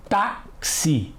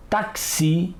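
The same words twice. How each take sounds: First: "táxi" as TÁ, pause, xi, strong first syllable; separated syllables. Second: "táxi" with the stress moved to the end, tak-SI; wrong-stress demonstration. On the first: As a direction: break "táxi" in two, stressing TÁ. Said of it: "Vamos separar as sílabas". ("táxi" em sílabas separadas, TÁ forte) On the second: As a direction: echo the misreading, "táxi" as tak-SI. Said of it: "Não é assim que costumamos falar". ("táxi" com a última sílaba forte) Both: Shown as a demonstration.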